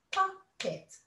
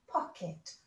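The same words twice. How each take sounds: First: "pocket" split into pock and et, a beat each; two syllables. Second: Said in the usual way. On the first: Shown as a demonstration. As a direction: break "pocket" in two with a short gap. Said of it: "it's got to have two syllables". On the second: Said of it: "You're right".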